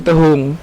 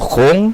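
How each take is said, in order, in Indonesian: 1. Kata ini terdiri dari dua suku kata dengan bunyi k yang dihilangkan. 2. Kata ini dipendekkan menjadi satu suku kata, khong. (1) "Kalau di Iliran sudah hilang kahannya itu, jadi tehung" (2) "jadi kalau di hulu tuh khong"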